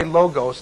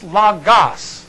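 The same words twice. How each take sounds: First: Logos said loh-gohs with long O sounds; wrong logos. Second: Logos said lah-gahs with short O sounds, slowly; correct logos. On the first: Teacher mocks the wrong logos, loh-gohs. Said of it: "they're wrong". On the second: Teacher gives the correct logos, slow lah-gahs. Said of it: "But it's not". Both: Shown as a demonstration.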